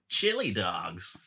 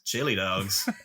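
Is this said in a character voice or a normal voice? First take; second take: character; normal. First: It is said in a put-on character voice. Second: It is read in a normal speaking voice.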